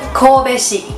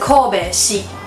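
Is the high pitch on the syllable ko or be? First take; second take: be; ko. First: The high pitch falls on the syllable be. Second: The high pitch falls on the syllable ko. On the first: The speaker calls it right. "但是它会变成Kobe 西" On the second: The speaker calls it wrong. "不是Kobe 西"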